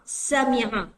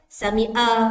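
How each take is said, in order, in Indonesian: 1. Bunyi ain jelas diucapkan di tenggorokan. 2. Bunyi ain dihilangkan dan tidak diucapkan.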